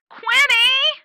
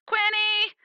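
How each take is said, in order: First: Much higher and louder, a frantic call from far off; louder yell. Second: High call from afar, searching; yelling a name. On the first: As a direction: yell it again with rising panic. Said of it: "says the yelling". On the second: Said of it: "someone very familiar yelling". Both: Acted.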